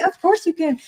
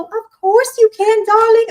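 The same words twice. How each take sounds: First: Said in the usual way. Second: Gushing. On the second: Real, not acted. Eager reply to client question.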